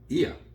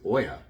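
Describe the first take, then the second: First: The name begins with an 'ee' sound. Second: The name begins with an 'oh' sound. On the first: This is how the name is said in Greek. The speaker calls it right. "the Greek pronunciation of it is Ia" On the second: This is how the spelling looks to an English reader. The speaker calls it wrong. "I would always think it was Oya"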